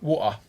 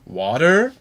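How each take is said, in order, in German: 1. Es wird mit einem stärkeren britischen Akzent gesprochen. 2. Es wird mit amerikanischem Akzent gesprochen. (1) "manche sogar Woa" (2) "Da sagt der Amerikaner Water"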